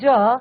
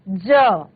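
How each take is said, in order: First: The consonant is a 'j' sound. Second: The consonant is a 'z' sound. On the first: "Hindi का ज" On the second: "Urdu का ज"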